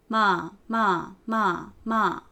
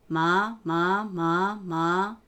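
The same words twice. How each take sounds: First: The pitch falls from fairly high. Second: The pitch rises from low to higher. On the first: "四声、" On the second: "二声、"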